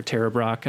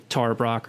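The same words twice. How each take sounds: First: "Tara" with the other vowel sound; alternative pronunciation. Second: "Tara" in one of two possible pronunciations; first pronunciation. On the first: Host correcting a teacher's name, alternative pronunciation of "Tara". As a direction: offer the second way of saying "Tara". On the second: Host unsure of a teacher's name, first pronunciation of "Tara". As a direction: offer a first way of saying "Tara". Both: Shown as a demonstration. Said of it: "Tara Brach or Tara Brach".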